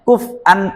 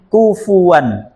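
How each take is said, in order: First: A glottal stop is heard in the middle. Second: A w sound is heard in the middle. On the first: This is the original form of the word. "aslinya kuf'an ahad" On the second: The glottal stop is lightened into a w. "kemudian ditakhfif menjadi kufuan"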